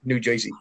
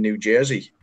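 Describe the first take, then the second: First: Mock local New Jersey accent, JOISEY; exaggerated New Jersey accent. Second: A slight American accent on Jersey; light American pronunciation of New Jersey. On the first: Shown as a demonstration. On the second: Real, not acted. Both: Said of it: "You said that with the accent".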